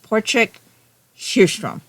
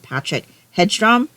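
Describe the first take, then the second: First: The name is said with Swedish sounds. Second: The name is read with English spelling sounds. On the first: It is said as on the audiobook. The speaker calls it right. "I listened on the audiobook and it's Portrik Hjerstrom" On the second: It is read the way the spelling looks. The speaker calls it wrong. "because that's what it looked like to me"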